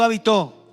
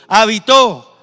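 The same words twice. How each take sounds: First: The word is said at normal, softer volume. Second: The word is said louder and with force.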